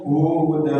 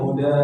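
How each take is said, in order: First: The first vowel is drawn out long. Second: The first vowel is short. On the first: The meaning changes to something else. The speaker calls it wrong. "U-nya kepanjangan" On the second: It means guidance. The speaker calls it right. "harusnya Buddha"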